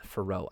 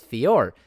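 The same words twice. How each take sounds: First: "Fiorot" as fuh-ROH, silent T; mispronounced name. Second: "Fior" as fee-OR, louder; corrected pronunciation. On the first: Real, not acted. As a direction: let "Fiorot" slip out as a low fuh-ROH. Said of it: "I said Fiorot again". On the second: Shown as a demonstration. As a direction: punch "Fior" with a final R. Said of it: "It's Fior".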